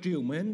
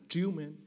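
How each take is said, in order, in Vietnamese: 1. Âm tiết đầu có giọng xuống thấp. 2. Âm tiết đầu có giọng lên cao. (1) "chứ không phải dấu huyền. Không phải triều mến đâu" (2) "đúng là chữ triếu mến dấu sắc"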